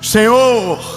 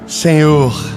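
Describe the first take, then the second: First: It is said in a frightened, panicked way. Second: It is said calmly and evenly.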